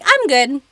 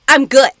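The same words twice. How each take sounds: First: It is said gently and eased into. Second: It is said flat and abrupt. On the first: A casual, softened way of saying one is fine. "Mabuti naman is like you're easing into it" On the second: A plain statement of being fine. "It's not just"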